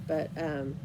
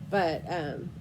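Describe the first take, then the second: No difference in how they are said.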